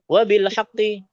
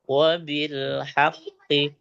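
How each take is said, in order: First: It is said at a fast pace. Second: It is said at a slow pace. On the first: "cepat beda lagi" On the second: "Umpamanya kita pelan bacanya"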